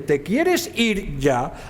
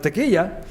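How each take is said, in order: First: Every sound of the phrase is pronounced clearly. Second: Many sounds are dropped, squeezing it into three syllables.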